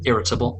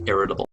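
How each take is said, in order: First: The middle T is said crisply and clearly. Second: The middle T is softened toward a D. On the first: "if you're British like me, uh, you'll probably want to hit that T" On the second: "for a more American sound, we'll soften that D, give it more of a D"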